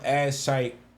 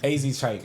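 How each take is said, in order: First: The first part is said as one syllable. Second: The first part is said as two letters. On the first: The speaker calls it wrong. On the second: The speaker calls it right.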